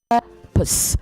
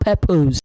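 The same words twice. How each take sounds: First: The second syllable sounds like pus, short vowel. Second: The second syllable sounds like pose, long vowel. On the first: The speaker calls it right. "it is pus. ... it's a short vowel there" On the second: The speaker calls it wrong. "The second part is not pose"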